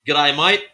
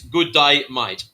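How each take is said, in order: First: The words run together into one short chunk. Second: Each word is said separately and fully.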